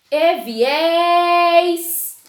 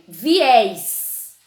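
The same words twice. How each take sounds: First: High, loud call with a long "és" in "viés"; drawn-out stressed syllable. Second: Said in the usual way. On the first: Shown as a demonstration. Teacher showing pupils the tonic syllable, "és" in "viés" stretched long. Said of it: "a que eu mais demorei foi o S". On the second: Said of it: "Outro exemplo".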